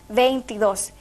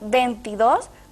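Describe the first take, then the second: First: The first syllable has the diphthong 'vein'. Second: The first syllable has a single vowel 'ven'. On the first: The speaker calls it right. "lo correcto" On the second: The speaker calls it wrong. "suprimir una de las vocales"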